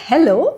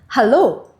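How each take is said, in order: First: The greeting is pronounced as English hello. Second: The greeting is pronounced as German Hallo. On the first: The speaker calls it wrong. "So it's not hello" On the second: The speaker calls it right. "but it is hello"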